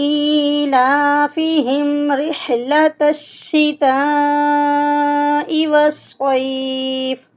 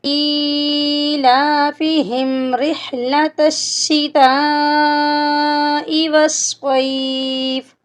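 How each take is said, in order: Both takes have the same delivery.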